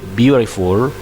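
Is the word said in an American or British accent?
American. It is said with an American accent. "when you say"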